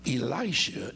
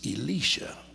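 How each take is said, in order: First: The name is given its English pronunciation. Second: The name is given its Hebrew pronunciation. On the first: "as we pronounce it in English" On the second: "in Hebrew it's Elisha"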